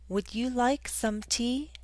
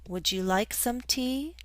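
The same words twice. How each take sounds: First: Would and you are said as separate words. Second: Would and you blend together into wouldja.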